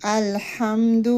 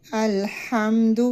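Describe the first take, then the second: First: الحمد with a clear breathy ha; distinct ha in الحمد. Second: الحمد with ha barely sounded; الحمد without a clear ha; slurred ha in الحمد; weak ha. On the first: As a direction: sound the ha of الحمد fully. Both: Shown as a demonstration. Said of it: "ہا کی sound صحیح نکالنی ہے".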